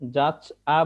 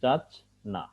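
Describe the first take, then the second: First: The final vowel follows the ch with no n. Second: An n sound comes between ch and the vowel. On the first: The speaker calls it wrong. "অনেক সময় আহ, যাচ আ বলে থাকি" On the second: The speaker calls it right. "আসলে উচ্চারণটা হবে যাচ না"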